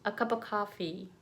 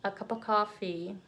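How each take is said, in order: No difference in how they are said.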